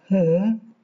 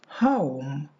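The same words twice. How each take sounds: First: The vowel stays steady without gliding. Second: The vowel glides from one quality to another. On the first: The speaker calls it wrong. "We don't say home" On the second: The speaker calls it right. "but home. The correct pronunciation"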